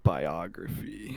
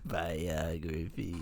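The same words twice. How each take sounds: First: Slow, low supervillain drawl. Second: Supervillain voice. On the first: Pretend. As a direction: say it like an evil mastermind. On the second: Retold or imitated. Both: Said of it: "You sound like a supervillain saying it that way".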